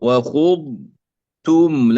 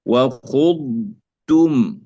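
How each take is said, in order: Both takes have the same delivery.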